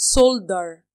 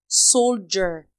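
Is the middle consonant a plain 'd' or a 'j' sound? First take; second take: d; j. First: The middle consonant is a plain d sound. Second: The middle consonant is a j sound. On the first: The speaker calls it wrong. "وما بقولهاش soldier" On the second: The speaker calls it right. "الدي والاي والاي كده بقولها زي ج"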